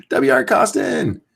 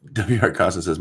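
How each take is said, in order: First: Slow, high, amused rereading through a laugh. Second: Said in the usual way. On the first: Real, not acted. Streamer laughing at a viewer's username, amused. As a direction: savor the name while chuckling.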